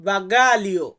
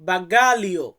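Both takes have the same delivery.

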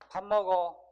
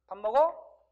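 First: The voice falls at the end. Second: The voice rises at the end.

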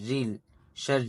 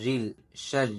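The two takes are said the same way.

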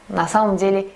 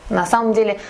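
The two takes are said the same way.

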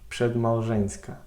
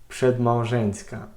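No difference in how they are said.

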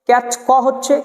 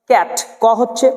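Both takes have the same delivery.

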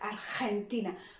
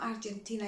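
First: The g is said with strong aspiration. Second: The g is said without aspiration. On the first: The speaker calls it right. "the GE was very aspired" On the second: The speaker calls it wrong. "So it's not Argentina"

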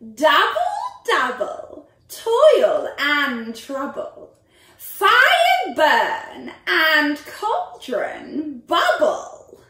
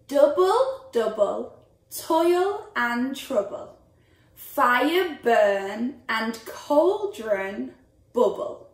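First: It is said in a witch's voice. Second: It is said in a normal voice.

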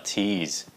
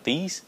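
First: The t is said with a puff of air. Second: The t is said without a puff of air. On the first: The speaker calls it right. "nó là tease" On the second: The speaker calls it wrong. "Không phải là tease"

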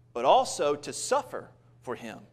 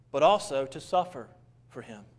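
No difference in how they are said.

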